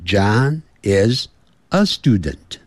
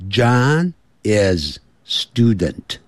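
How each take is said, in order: First: Said in the usual way. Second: "John is student" said slowly, no "a"; slow model of "John is student" with "a" left out; wrong form without article. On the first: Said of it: "不要说，“John is student。". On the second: Shown as a demonstration. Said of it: "不要说".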